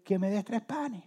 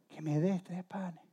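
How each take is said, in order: First: Higher-pitched request; lightly acted plea, pitched up; pleading night visitor. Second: Slow, soft plea; hushed repeated request. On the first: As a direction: ask a sleeping friend for a favour. Night visitor asking sleeper for bread. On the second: Acted. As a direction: ask softly and slowly in a sleeping house. Repeats request to sleeping household.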